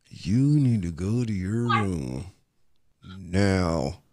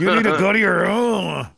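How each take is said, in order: First: Low, soft, slow order through still lips; ventriloquist dad. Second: High, laughing ventriloquist dad; mock a dad's order through a laugh. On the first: Retold or imitated. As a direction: imitate a stern dad, mouth barely moving. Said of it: "your mouth ain't even moving".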